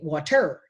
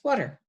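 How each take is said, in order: First: The final er sound is stressed. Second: The final er sound is unstressed and reduced. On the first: The speaker calls it wrong. "when er is at the end of a word, it's never stressed. We don't say water" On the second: The speaker calls it right. "It's water. Again, it's a little bit reduced"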